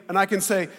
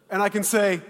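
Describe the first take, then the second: No difference in how they are said.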